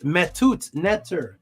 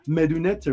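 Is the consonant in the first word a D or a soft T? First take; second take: soft T; D. First: The first word has a soft T sound. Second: The first word has a plain D sound. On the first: The speaker calls it right. "It's a soft T" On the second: The speaker calls it wrong. "People say it like as if it's just a D"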